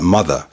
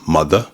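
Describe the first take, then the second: First: The final R sound is pronounced. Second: The final R sound is dropped. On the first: "Even words like mother" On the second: "can become mother"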